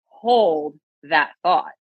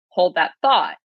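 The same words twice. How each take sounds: First: The stress falls on the word hold. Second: The stress falls on the word thought. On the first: It focuses on the action of holding on to a thought. "when you say it this way" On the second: It is an everyday request to pause a conversation. "we say that all the time"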